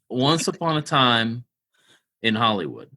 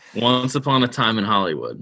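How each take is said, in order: First: It is said slowly and deliberately. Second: It is said quickly, rushed together.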